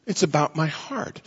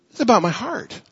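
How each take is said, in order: First: Softer echo. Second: Higher pitched insistence. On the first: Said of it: "repeated phrase, softer". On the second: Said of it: "repeated phrase, raised". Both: Shown as a demonstration.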